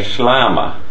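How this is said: The long vowel is pronounced as A. The speaker is from the Nina-speaking area. "if you met somebody from the Nina-speaking area"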